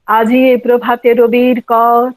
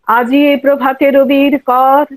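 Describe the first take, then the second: Both takes have the same delivery.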